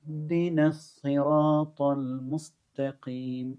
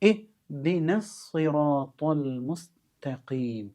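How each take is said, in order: First: The 'i' drops and joins the previous word's 'nu'. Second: The phrase starts fresh with a clear 'i' sound. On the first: The verse is read joined to the verse before. "അപ്പോൾ നുഹ്ദിന എന്നായിട്ട് മാറി" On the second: The verse is read on its own, after a stop. "ഇഹ് എന്നാണ്"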